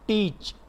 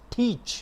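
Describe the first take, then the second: First: "teach" with no puff on the t; unaspirated t. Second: "teach" with a puff of air on the t; aspirated t. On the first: Teacher showing students the wrong "teach", t unaspirated. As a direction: start "teach" on a pure ट, breath held back. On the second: Teacher modelling the right "teach" for students, t aspirated. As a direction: start "teach" on a breathed ठ sound. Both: Shown as a demonstration. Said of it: "not teach".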